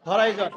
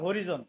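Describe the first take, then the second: First: The middle vowel sounds like 'eye'. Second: The middle vowel sounds like a short 'ee'. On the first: The speaker calls it right. "এখানে উচ্চারণ কি হবে? হরাইজন" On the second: The speaker calls it wrong. "আমরা শিখে আসছি হরিজন"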